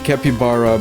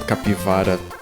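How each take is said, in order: First: The middle consonant is a b sound. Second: The middle consonant is a v sound. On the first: This is the name others use. "it always sounds weird to me" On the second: This is the name used at home. "It's called capivara"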